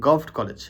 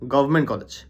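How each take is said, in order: First: The first word is clipped to one short syllable. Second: The first word is said fully, all syllables. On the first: The speaker calls it wrong. "Not গভট college ... এটা কিন্তু শুনতে weird লাগে" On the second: The speaker calls it right. "Sirajganj গভর্নমেন্ট college"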